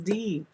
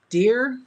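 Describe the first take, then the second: First: The name is said like the letter D. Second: The name is said like the word dear. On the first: The speaker calls it right. "no, it's D" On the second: The speaker calls it wrong. "we'll just call you Dear"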